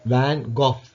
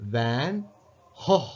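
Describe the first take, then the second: First: The name ends with a hard g and f sound. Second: The name starts its second word with an h sound. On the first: "பிரிட்டனில், British" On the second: "ஜிக்கு பதிலாக ஹோ என்ற சவுண்டு கொடுக்குற"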